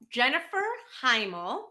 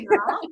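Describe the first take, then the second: First: The name begins with an audible H sound. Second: The name begins directly with a vowel sound. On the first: The speaker calls it wrong. "Did I say that right?" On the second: The speaker calls it right. "It's pronounced email. The H is silent"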